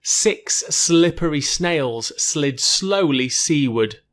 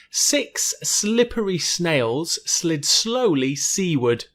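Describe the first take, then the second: First: Very slow, distinct s and sl in "slippery snails slid"; careful s sounds. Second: Very slow, word-by-word tongue twister; slower and clearer. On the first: Teacher repeats the snail tongue twister, careful enunciation. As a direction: draw out "slid slowly seaward" with clean s sounds. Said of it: "So it'd be the s, sl". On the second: Teacher gives one more careful run, slow and clear. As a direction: spell out each word slowly and clearly. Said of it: "a little bit slower and clearer". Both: Shown as a demonstration.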